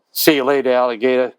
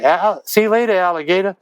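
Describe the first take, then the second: First: Said in the usual way. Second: Higher, sing-song parting line at the door; tossed-off goodbye. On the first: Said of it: "I was working on". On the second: Retold or imitated. Songwriter acting his own farewell at the diner door, sing-song. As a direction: throw it over your shoulder on the way out. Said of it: "turned around and said".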